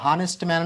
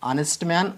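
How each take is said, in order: First: The first word begins with an h sound. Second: The first word begins with a vowel sound. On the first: The speaker calls it wrong. "హానెస్ట్ man అని పలకకూడదు" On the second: The speaker calls it right. "ఆనెస్ట్ man అని అనాలి"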